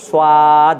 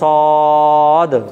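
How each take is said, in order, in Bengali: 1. মুখটা বেঁকানো, গোল নয়। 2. মুখটা সম্পূর্ণ গোল। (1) "মুখটাকে একটুকু বেঁকিয়ে দেন" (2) "সম্পূর্ণ মুখটা গোল থাকবে"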